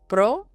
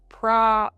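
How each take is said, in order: First: The vowel sounds like 'oh'. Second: The vowel sounds like 'ah'. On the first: The speaker calls it right. "the O sounds like O" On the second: The speaker calls it wrong. "We want to avoid saying this first syllable like pra, like we would in English"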